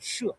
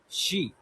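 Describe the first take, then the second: First: It is said with the Chinese pinyin sound. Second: It is said like the English word 'she'. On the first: The speaker calls it right. "we pronounce it uh, She in Chinese pinyin" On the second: The speaker calls it wrong. "we don't pronounce it she"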